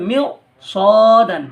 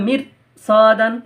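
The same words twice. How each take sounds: First: মিউ with a heavy r, lips rounded; মিউ সদান with a thick rounded r; heavy r, right way. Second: মির with a light thin r, lips unrounded; মির সদান with a thin unrounded r; thin r, wrong way. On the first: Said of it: "এটাকে পড়তে হবে". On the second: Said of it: "তার রটা বারিক হয়ে যাচ্ছে, পাতলা হয়ে যাচ্ছে". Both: Shown as a demonstration.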